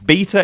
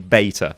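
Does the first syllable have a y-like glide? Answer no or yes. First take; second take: no; yes. First: The first syllable has no y-like glide. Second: The first syllable has a y-like glide. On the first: This is the speaker's own accent. The speaker calls it right. "Beta is how I say it. That's my accent" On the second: This is a pronunciation the speaker rejects. The speaker calls it wrong. "it doesn't have a Y in it, so I'm not going to say beta"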